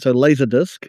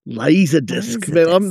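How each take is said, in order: First: It is said in the speaker's usual accent. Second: It is said in an Australian-style accent. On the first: "I'll do it how I normally say it" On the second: "I find myself doing it more Australian when I do it"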